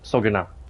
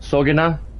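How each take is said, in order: First: The vowel sounds are said plainly, without extra emphasis. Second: The O vowel sounds are given extra emphasis.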